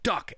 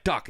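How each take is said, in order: First: The word Duck jumps much higher, urgent; urgent warning. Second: Said in the usual way. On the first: Retold or imitated. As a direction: warn her again, far more urgently. Repeats warning more urgently.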